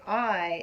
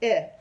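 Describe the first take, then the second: First: The vowel is said as a long I. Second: The vowel is said as a short i. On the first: "makes the I say I" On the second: "instead of I"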